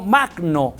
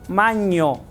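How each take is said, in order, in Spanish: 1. La consonante del medio es una g dura. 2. La consonante del medio es un sonido ny. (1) "no magno en griego" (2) "En griego magno se pronuncia maño"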